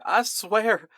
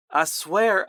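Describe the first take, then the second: First: Even higher, more desperate begging; higher desperate plea. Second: Pleading. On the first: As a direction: push the second swear higher. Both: Acted. Terrified soldier begging.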